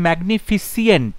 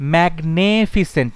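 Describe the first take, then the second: First: The ending has an extra 'ee' sound: -fisient. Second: The second syllable has an 'e' vowel: magne-. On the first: "না ফিসিয়েন্ট নয়" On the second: "ম্যাগনেফিসেন্ট নয়"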